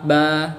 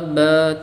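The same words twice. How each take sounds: First: The vowel is fully open and clear. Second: The vowel is half-closed and slightly nasal. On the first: The speaker calls it right. "dengan membuka mulut ketika melafadzkannya" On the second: The speaker calls it wrong. "mulutnya itu tertutup atau terbuka tapi nanggung"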